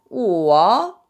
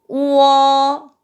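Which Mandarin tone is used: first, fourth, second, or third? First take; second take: third; first. First: It is said with the third tone. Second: It is said with the first tone. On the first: "3성은" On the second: "1성부터 시작할게요"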